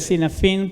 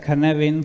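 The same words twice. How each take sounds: First: The name is read just as it is spelled. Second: The name is said with a Welsh pronunciation. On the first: The speaker calls it wrong. "Se lee" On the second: The speaker calls it right. "pero se pronuncia Cynefin porque el autor es Dave Snowden, que es un galés"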